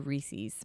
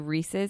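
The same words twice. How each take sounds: First: It uses a local Philadelphia pronunciation. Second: It uses the general, non-Philadelphia pronunciation. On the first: This is how the speaker says it. The speaker calls it wrong. "I say it wrong. It's a Philly thing" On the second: This is how the other person says it. The speaker calls it right. "You say it right"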